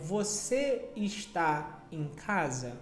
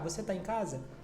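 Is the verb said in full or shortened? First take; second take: full; shortened. First: The verb is said in full as está. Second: The verb is shortened to tá. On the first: "ao invés de falar está" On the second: "de uma forma natural, eu particularmente eu falo você tá em casa"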